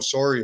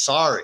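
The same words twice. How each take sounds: First: It is said with a Canadian accent. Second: It is said with an American accent. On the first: "now I'm speaking with a Canadian accent and I'm saying" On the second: "It's sorry"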